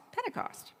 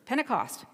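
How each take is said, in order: First: Pentecost whispered and pitched much higher; soft high whisper of Pentecost. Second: Said in the usual way. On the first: Shown as a demonstration. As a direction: breathe the word Pentecost as a hushed echo. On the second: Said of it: "Easter, Passover".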